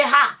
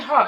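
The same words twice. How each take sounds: First: "her" said as an open "ha"; Nigerian pronunciation. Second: "her" with a central er vowel; foreign-influenced pronunciation. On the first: YouTuber showing her Nigerian way, "her" said as "ha". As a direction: drop the r, "her" becomes "ha". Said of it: "in the Nigerian way". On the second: Nurse showing her changed accent, "her" said with an er vowel. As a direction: say "her" as "hur". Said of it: "sometimes I'm saying her". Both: Shown as a demonstration.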